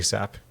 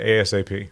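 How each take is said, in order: First: It is said as a single word. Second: Each letter is spoken separately. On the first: The speaker calls it wrong. "You're not supposed to say" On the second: The speaker calls it right. "You're supposed to say"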